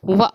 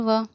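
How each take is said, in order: First: The syllable ends with an abrupt jolt. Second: The syllable ends smoothly without a jolt. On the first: The speaker calls it wrong. "लेकिन झटका नहीं होना चाहिए। व करके हमें इसे नहीं पढ़ना" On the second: The speaker calls it right. "हमें वाव ज़बर व"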